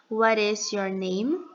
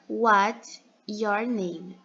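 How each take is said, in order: First: 'What is' is said as two full words. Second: 'What is' is contracted to 'what's'. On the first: "A forma completa" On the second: "a forma contraída"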